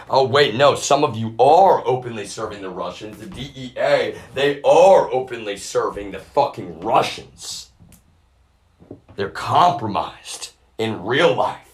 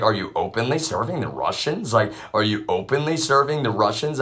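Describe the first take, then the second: First: Loud, higher, hammering ARE as confirmation; heated accusation. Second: Louder retold question, pressed in disbelief; incredulous question. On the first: Real, not acted. Speaker accusing people of openly serving the Russians, heated and loud. Angry realization answering his own question. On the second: Speaker challenging people over serving the Russians, incredulous question. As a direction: demand it as if you can hardly believe it.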